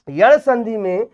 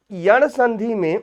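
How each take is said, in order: Both takes have the same delivery.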